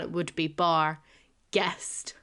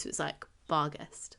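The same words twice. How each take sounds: First: "bar" and "guest" said separately with a pause; split into two words. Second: "bar guest" run together as one word. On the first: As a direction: break it down: "bar" then "guest". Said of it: "If you were to break it down". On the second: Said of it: "but it is one word". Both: Shown as a demonstration.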